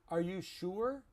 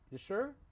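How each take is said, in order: First: The words 'are you' are said in full. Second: The words 'are you' are shortened to one syllable. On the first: This is the textbook form. "That is correct English. But no one says that" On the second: This is the everyday spoken form. "It's just easier to say"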